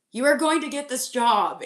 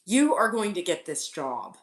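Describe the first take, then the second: First: Louder, higher insistent repeat; emphatic insistence. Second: Said in the usual way. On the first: Shown as a demonstration. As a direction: drive it home, punch "are".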